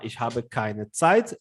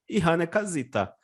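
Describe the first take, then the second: First: It is said in standard German. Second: It is said in a regional dialect.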